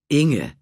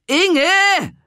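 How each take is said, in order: First: Louder, firm address of disbelief; stunned rebuke. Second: Loud, high call across the beach. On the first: Renate stops and confronts Inge, firm and stunned. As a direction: say her name in sharp disbelief. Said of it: "sah sie fassungslos an". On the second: Renate calls Inge across the beach, loud and high. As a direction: shout her name from a distance. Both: Acted.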